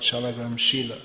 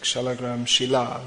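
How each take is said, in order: First: Shila is said like the word for character. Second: Shila is said like the word for stone. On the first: The speaker calls it wrong. "not Shalagram Shila, as it's sometimes mispronounced" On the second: The speaker calls it right. "just like Shalagram Shila"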